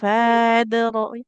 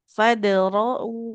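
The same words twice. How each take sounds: First: The vowel before the d is drawn out long. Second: The vowel is short, going straight into the d. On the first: The speaker calls it wrong. "Jadi bukan fadra'u" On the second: The speaker calls it right. "Langsung aja ke huruf dalnya"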